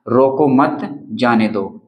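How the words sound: The pause comes after the second word. Do not stop him, let him go. "देखिए रोको मत, यहाँ पर हमने अल्प विराम लगाया है।"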